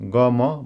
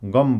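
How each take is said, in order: First: It is said as two separate syllables. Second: It is said as one closed syllable. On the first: The speaker calls it wrong. "खाम भाषा नबोल्ने कसैलाई यो शब्द पढ्न लगाउने हो भने तिनीहरूले यसलाई ग म भनेर भन्छन्" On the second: The speaker calls it right. "ग म नभनेर गम भनेर उच्चारण गर्छन्"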